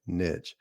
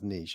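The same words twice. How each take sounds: First: It is said the Tennessee way, like 'nitch'. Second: It is said the standard way, like 'neesh'.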